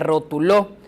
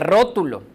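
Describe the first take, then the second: First: The stress is on the last syllable. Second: The stress is on the first syllable. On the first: It is a past-tense form of the verb to label. "Y si tuviera acento en la última O" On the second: It is a noun meaning a drawing. "Sería la sílaba tónica al principio"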